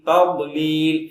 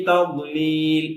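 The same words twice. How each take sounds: No difference in how they are said.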